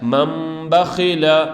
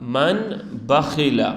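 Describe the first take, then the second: First: An m sound is said before the b. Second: An n sound is said before the b. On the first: The speaker calls it right. "नून की जगह हम मीम पढ़ेंगे" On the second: The speaker calls it wrong. "लेकिन नून नहीं पढ़ेंगे"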